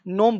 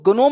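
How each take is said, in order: First: The word begins with an n sound. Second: The word begins with a hard g sound. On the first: The speaker calls it right. "नोम बोलते हैं" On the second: The speaker calls it wrong. "गनोम नहीं"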